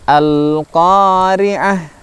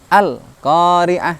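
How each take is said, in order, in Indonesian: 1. Bunyi L ditahan sebentar. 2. Bunyi L dihentikan secara tiba-tiba. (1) "masih kita tahan sebentar huruf lam sukunnya, tidak berhenti atau mandek" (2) "tidak serta-merta berhenti ... kurang sempurna"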